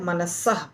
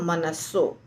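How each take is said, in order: First: The word ends in a vowel plus breathy h. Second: The word ends in a plain o vowel. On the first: This is the word's separate form. "मनसः में विसर्ग है" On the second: This is how it is read when joined in the verse. "पर जब पढ़ेंगे तो मनसो"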